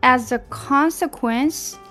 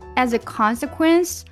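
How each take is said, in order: First: It is said at a slower pace. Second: It is said at a faster pace. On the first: "再来一遍" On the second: "我们加快一些。"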